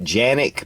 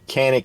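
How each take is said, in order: First: The name is said the Turkish way. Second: The name is said the American way. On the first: This is how it is said in Turkey. "that's how they pronounce it in Turkey" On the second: This is how it is said in the US. "here in the U S, Canik is how we pronounce it"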